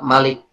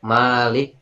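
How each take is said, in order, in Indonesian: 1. Vokal pertama dibaca pendek. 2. Vokal pertama dibaca panjang. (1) "bisa dibaca pendek" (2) "bisa dibaca panjang"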